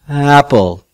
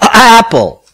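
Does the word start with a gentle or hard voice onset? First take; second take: gentle; hard. First: The voice starts with a soft, gentle onset. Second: The voice starts with a forceful, blocked onset. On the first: The speaker calls it right. "to achieve a gentle onset" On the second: The speaker calls it wrong. "too forceful aphonation, so that the vocal cords are in this locked position"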